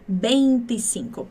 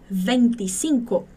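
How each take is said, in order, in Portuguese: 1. O primeiro som é um B, os dois lábios juntos. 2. O primeiro som é um V, com o lábio inferior nos dentes. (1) "É muito mais comum você escutar o V do espanhol com som de B" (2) "você nunca vai ouvir um nativo falar vinte e cinco? Não posso, ... mas não é muito comum"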